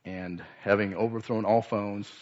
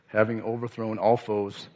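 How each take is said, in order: First: Said in the usual way. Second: "all" leaned on, falling firmly; stress on all. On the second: Shown as a demonstration. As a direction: press the word "all" hard in "having overthrown all foes". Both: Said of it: "brings out the full force".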